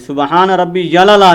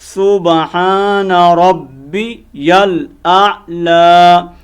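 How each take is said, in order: First: The ending is squeezed into a short 'yala'. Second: The ending is said fully as 'yal aala'. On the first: The speaker calls it wrong. "सुबहान रब्बी यला नहीं पढ़ना" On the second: The speaker calls it right. "बल्कि क्या है"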